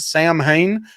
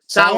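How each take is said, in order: First: It is said like 'Sam-hane', two clear parts. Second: It is said like 'Sow-in', one rounded vowel. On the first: The speaker calls it wrong. "I always called it Sam Hain" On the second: The speaker calls it right. "it's really pronounced Sound"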